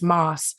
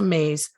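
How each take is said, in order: First: The name sounds like 'Moss'. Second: The name sounds like 'Mays'. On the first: This is how the media says the name. The speaker calls it wrong. "The media has long pronounced her last name as Moss" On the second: This is how locals say the name. The speaker calls it right. "we can confidently say Lisa Mays"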